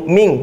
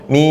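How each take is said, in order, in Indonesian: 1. Berakhir dengan bunyi 'ng' yang jelas dan penuh. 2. Berakhir dengan bunyi sengau yang samar. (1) "jangan ming, ming, nggak boleh ming" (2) "yang benar antara n dan z nggak jelas, samar"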